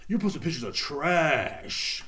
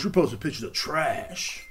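First: Slower, falling mock accusation; mocking critics. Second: Slow, mock accusing voice; mocking critics. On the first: Critics attacking his Instagram posts, in a slow disdainful mock. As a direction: let it sink in like a disdainful critic. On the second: Critics attacking his Instagram posts, in a slow mock scold. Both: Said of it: "people, like, talk shit about me".

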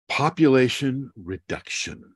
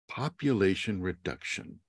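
First: Population reduction stated firmly; emphatic statement. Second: Ominous quiet echo. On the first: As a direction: land "population reduction" as the shocking point. Emphatic statement then echo. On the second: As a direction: let "Population reduction" sink in, softer. Quiet echo of previous line. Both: Acted.

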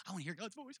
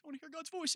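First: Said in the usual way. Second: Higher mock plea on voice; mock whine. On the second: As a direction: mimic people whining for God's voice. Mocking what people say.

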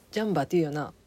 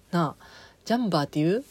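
First: ジャンバーって言うよな settling down with a falling end; agreeing with yourself, ジャンバーって言うよな falling to a close; affirming tune. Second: ジャンバーって言う asked with a quick rising tune at the end; checking the word with the viewer, ジャンバーって言う rising like a question; asking tune. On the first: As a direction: answer yourself with ジャンバーって言うよな, the pitch dropping to a close. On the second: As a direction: toss out ジャンバーって言う as a fast question with the pitch going up. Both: Shown as a demonstration.

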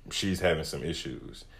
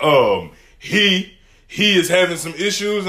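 First: Said in the usual way. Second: HE punched high and loud; raised, pointed stress on HE; indignant correction. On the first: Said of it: "I was like, "Hey, can somebody". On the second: Retold or imitated. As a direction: imitate a loud correction, hitting HE hard. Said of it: "got up and was like".

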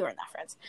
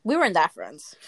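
First: Whispered aside under a laugh. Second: Said in the usual way. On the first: Acted. Repeating to her friend in a whisper. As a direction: drop it to a breathy whisper.

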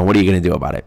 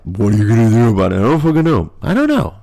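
First: Said in the usual way. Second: Hammed-up helpless voice; mock exasperation. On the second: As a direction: throw it out in a rising comic whine. Repeats in put-on exasperated voice.

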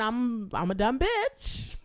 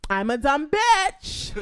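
First: Said in the usual way. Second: Louder, slow, "bitch" falling hard; indignant repeat. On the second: Real, not acted. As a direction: throw it back, outraged.

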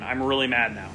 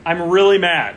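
First: Said in the usual way. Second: Louder, mock-frustrated outburst; half-joking anger. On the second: Real, not acted. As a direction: punch it out, annoyed but playful.

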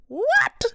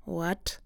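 First: Very high, louder rising what; shocked outcry. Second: Low, much softer flat what; stunned disbelief. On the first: Host reacting to the thief tapping out with his card, high shocked cry. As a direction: shriek it in disbelief. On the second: Host hearing the thief used his debit card, soft stunned what. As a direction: mutter it in quiet shock. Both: Real, not acted.

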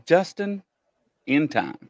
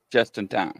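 First: JUSTIN, a pause, then IN TIME; name split apart. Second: "Just in time" run into one quick phrase; said run together. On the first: Host sounding out a viewer's screen name, split apart. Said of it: "You said that real fast it sounds like". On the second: Host showing how the screen name sounds, run together. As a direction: blend "Just in time" together without a break. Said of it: "You said that real fast". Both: Shown as a demonstration.

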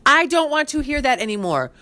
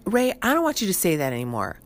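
First: Higher, exasperated telling-off; fed-up wife telling husband to stop, higher; mildly pissed. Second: Said in the usual way. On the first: Retold or imitated. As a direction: snap it at him, fed up. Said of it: "'cause I get so pissed". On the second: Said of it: "And I'm like".

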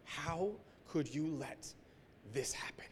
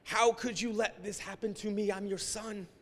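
First: Soft, slow, almost whispered plea; hushed retold cry to God. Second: Higher, pleading outburst; anguished cry to God. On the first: Hushed slow plea to God. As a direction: pastor whispering his anguish at his father God. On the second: Retold or imitated. Higher pleading outburst. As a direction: pastor crying out to God on the beach. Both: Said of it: "And just yelling at my father".

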